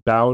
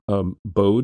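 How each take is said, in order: First: The vowel sounds like the 'ow' in 'Braun'. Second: The vowel is the long o of 'code'. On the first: This is a German reading of the spelling. The speaker calls it wrong. "would be the German pronunciation of that particular pair of vowels, like in the name Braun" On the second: This is how the name's owner says it. The speaker calls it right. "So Bode is how he pronounces it"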